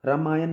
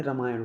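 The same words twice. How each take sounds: First: रामायण ending in a dental n, "ramayan"; wrong pronunciation. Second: रामायण ending in retroflex ṇ; correct pronunciation. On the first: Teacher shows the mistake, रामायण with plain final n. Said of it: "नहीं होता भाई". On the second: Teacher gives the right form, रामायण with retroflex final ṇ. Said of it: "होता है". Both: Shown as a demonstration.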